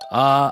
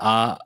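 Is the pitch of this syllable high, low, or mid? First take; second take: high; mid. First: The syllable is said on a high pitch. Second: The syllable is said on a mid pitch.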